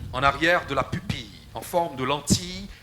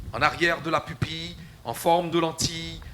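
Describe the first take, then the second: Both takes have the same delivery.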